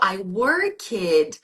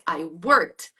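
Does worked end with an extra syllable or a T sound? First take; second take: extra syllable; T sound. First: The ending is said as a separate extra syllable. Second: The ending is a short T sound, one syllable. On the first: The speaker calls it wrong. "that's not how it works" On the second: The speaker calls it right. "This T sound is the past"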